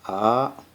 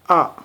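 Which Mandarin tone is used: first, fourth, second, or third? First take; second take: second; fourth. First: It is said with the second tone. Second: It is said with the sharp fourth tone. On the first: "The second tone pronounced like ah" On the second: "the fourth tone pronounced like ah. This kinda sharp"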